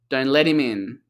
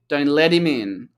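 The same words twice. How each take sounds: First: The T is a D-like flap and 'him' is reduced. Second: The same.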